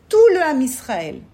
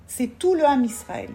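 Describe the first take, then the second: First: "Tout le Ham Israël" said again louder, "tout" hit hard; emphatic repeat. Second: Said in the usual way. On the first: Shown as a demonstration. Teacher to students, stressing the whole people, louder. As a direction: drive home "tout" with a louder, falling stress.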